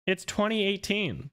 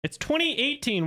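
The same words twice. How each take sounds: First: Pitched much higher, exasperated; indignant correction. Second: Indignant correction. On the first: Correcting a chatter about a film's year, exasperated. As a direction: set the chatter straight, fed up. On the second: Indignant at a chatter's trick question. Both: Real, not acted.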